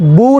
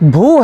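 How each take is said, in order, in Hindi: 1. पहला व्यंजन सादा अल्पप्राण b है। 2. पहला व्यंजन श्वासयुक्त महाप्राण bh है। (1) "बू नहीं" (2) "भू है"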